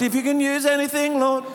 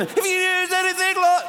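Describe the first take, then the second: First: Higher-keyed mock singing; key change up. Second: Very high, squeezed mock singing; hammed-up key change at the top of the range; key change higher still. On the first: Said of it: "then the key change comes". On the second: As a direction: push the song up into a silly high key. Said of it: "you're just changing key all the time". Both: Shown as a demonstration.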